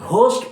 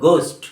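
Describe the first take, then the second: First: The first g sound is breathy. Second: The first g sound is plain. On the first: The speaker calls it wrong. "ঘোস্ট পড়তে হবে না" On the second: The speaker calls it right. "এর pronunciation বা উচ্চারণ হলো গোস্ট"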